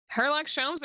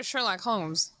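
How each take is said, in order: First: "Sherlock Holmes" said as Herlock Sholmes; spoonerised name. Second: Said in the usual way. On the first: Shown as a demonstration. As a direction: swap the opening sounds of "Sherlock Holmes" to H and Sh. Compares the spoof name with the original.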